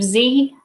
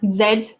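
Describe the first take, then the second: First: The letter is pronounced zee. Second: The letter is pronounced zed. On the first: This is the other, non-British way. "instead of" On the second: This is the British way. "Lou's favourite British word"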